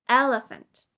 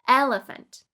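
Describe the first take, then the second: No difference in how they are said.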